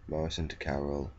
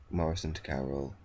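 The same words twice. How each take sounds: The two takes are said the same way.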